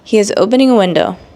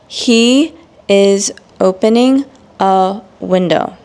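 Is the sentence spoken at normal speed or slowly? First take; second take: normal; slow. First: It is spoken at a normal pace. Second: It is spoken slowly and carefully. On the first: "then I will provide the normal speed" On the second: "examples again in slow English"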